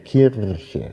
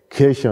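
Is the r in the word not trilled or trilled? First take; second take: trilled; not trilled. First: The r is said with a tongue-tip trill. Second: The r is said without a tongue-tip trill. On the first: This is the old recommended stage pronunciation. "ein Zungenspitzen-R zu sprechen. Also Kirche, Kirche, ein Vibrant" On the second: This is the everyday standard pronunciation. "in Norddeutschland hat man eben oft diese Behauchung Kirche"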